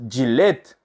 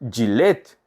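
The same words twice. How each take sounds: Both takes have the same delivery.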